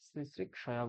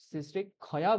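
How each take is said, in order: First: The middle cluster sounds like k plus s. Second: The middle cluster sounds like k plus kh. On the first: The speaker calls it right. "ক আর স বলতে হবে" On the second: The speaker calls it wrong. "ক আর খ এই দুটো সংযোগ হয়ে যায়"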